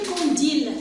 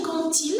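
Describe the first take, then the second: First: "quand il" wrongly linked with a D, as "kan-dil"; mispronounced D liaison. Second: "quand il" linked with a T, as "kan-til"; correct T liaison. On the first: Teacher shows children what to avoid, D liaison. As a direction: keep a voiced D in "quand il". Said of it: "c'est pas bien prononcé". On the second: Teacher gives children the good pronunciation, T liaison. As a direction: sound the D of "quand il" as a crisp T. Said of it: "ça donne une bonne prononciation". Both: Shown as a demonstration.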